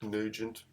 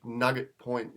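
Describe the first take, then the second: First: "Nugent" said NEW-jent, soft g; long oo and soft g in "Nugent", softly; alternative pronunciation. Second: "Nugget" said as spelt, hard g; short vowel and hard g in "Nugget"; literal reading. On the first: Host unsure of the local name, tentative soft-g "Nugent". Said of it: "But it might be". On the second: Host admitting to reading names literally, as-spelt "Nugget". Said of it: "a really literal way quite often". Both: Shown as a demonstration.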